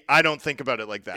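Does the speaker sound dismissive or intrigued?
dismissive. It sounds dismissive and puzzled. The idea seems pointless or confusing. "like, what are you talking about?"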